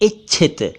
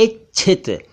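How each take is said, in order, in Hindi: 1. बीच का संयुक्ताक्षर 'chh' की आवाज़ के साथ बोला जाता है। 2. बीच का संयुक्ताक्षर 'chh' की आवाज़ के साथ बोला जाता है।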